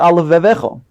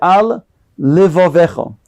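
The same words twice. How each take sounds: First: The two words are run together quickly. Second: The two words are separated by a gap. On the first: The speaker calls it wrong. "If you say it quickly, you can then swallow the word into one" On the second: The speaker calls it right. "make a separation between the two"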